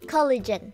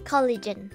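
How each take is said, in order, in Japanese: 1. 英語の KOL-uh-jen のように、短い母音で言います。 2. 英語の KOL-uh-jen のように、短い母音で言います。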